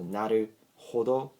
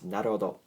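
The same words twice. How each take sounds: First: The h sound is pronounced strongly. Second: The h sound is pronounced very lightly. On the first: The speaker calls it wrong. "naruhodo sounds a bit, you know, strange" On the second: The speaker calls it right. "It's much better"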